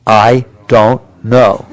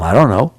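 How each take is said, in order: First: Slow call-and-response "I don't know"; slow, drawn-out I don't know. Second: Said in the usual way. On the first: Shown as a demonstration. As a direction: stretch "I don't know" out slowly, word by word. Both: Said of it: "Say it with me".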